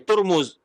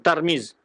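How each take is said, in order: First: The first syllable has the vowel u. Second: The first syllable has the vowel a. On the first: "bi dhammi ta wal mim" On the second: "Fathu ta ya wa kasim"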